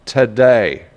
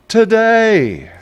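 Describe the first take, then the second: First: Said in the usual way. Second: High, drawn-out sing-song Today; sing-song repeat. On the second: Shown as a demonstration.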